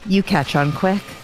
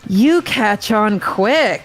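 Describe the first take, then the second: First: It is said in a plain, sincere tone. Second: It is said in a heavily sarcastic tone. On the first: The praise is meant genuinely. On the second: The praise is not meant genuinely.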